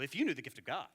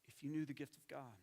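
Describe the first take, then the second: First: The tone sounds condescending and scolding. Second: The tone sounds warm and compassionate. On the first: The listener is being rebuked for not knowing. The speaker calls it wrong. "We can read it with this tone of voice. ... But that's not how Jesus talked" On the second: The speaker longs to share something with the listener. The speaker calls it right. "This is how Jesus talked. ... He shows compassion"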